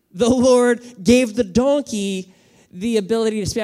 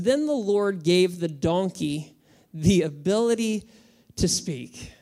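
First: The Lord gave the donkey the ability to speak, louder and higher with "gave" stressed; emphatic repeat. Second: Said in the usual way. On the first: Shown as a demonstration. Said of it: "I just wanna let you think about that".

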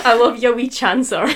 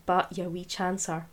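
First: Wee chancer said much louder with a Scottish relish; gleeful Scottish wee chancer with a laugh; relishing Scottish accent. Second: Said in the usual way. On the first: Shown as a demonstration. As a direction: savour wee chancer loudly in broad Scots. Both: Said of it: "it's so fun to say".

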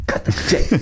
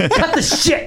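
First: Voiceless hiss at a colleague; hissed whisper. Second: Very high, strained protest; mock furious squeal. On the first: Acted. Broadcaster sniping at his partner during a silence, whispered. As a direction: whisper it as a secret warning. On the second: Broadcaster sniping at his partner during a silence, mock furious. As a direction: squeeze it out high, close to laughing.

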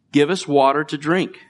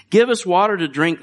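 First: Said in the usual way. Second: Higher, louder mock demand. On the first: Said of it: "the people quarreled with Moses and said". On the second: Preacher voicing the thirsty crowd's demand, loud and high. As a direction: bark the demand like a grumbling crowd. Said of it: "they demanded".

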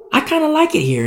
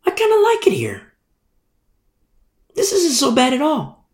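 First: Voiced contentment. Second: High, whispered aside; whispered contentment. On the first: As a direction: say it aloud, pleased, in a higher voice. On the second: Retold or imitated. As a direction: whisper it, pleasantly surprised. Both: Servant voiced in a parable.

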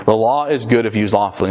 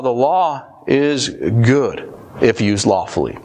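First: Said in the usual way. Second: Half-speed with weighty pauses; slow, deliberate. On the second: Real, not acted. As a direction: spell it out slowly for the congregation. Slow first take, then repeated.

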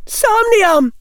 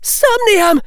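First: High, loud spell cry; cried spell. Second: High, loud spell cry; shouted spell. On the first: Hannah bluffing a sleep spell again, cried high. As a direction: shout the fake spell hard. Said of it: "Hannah cried". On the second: Hannah bluffing a spell at Neville, shouted high. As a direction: fling the spell out at full voice. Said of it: "Hannah shouted". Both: A narrator's reading.

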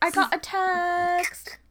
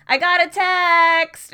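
First: Slow, high, drawn-out accented "I got a text"; saying it in her accent. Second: Loud, high, slow mock "I got a text!"; imitating Americans' version. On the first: Shown as a demonstration. Friend repeating her catchphrase in her accent, slow and high. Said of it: "I still say it in the accent". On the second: Mocking how Americans say her phrase, loud and high. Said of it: "Americans don't have that accent".

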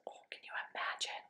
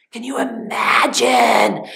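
First: A quick breathless whisper to the listeners; hushed whisper. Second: Urgent stage whisper. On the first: Storyteller asking the kids in a fast whisper. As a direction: whisper it fast, wide-eyed. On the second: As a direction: push the breath hard on imagine. Storyteller repeats, stronger. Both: Real, not acted.

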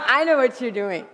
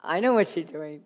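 First: Laughing husband. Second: Knowing husband. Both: Retold or imitated. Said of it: "he'll turn to me and go".

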